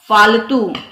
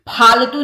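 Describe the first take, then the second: First: It begins with an f sound. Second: It begins with an aspirated ph sound. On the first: The speaker calls it right. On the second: The speaker calls it wrong.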